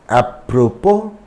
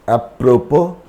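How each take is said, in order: Both takes have the same delivery.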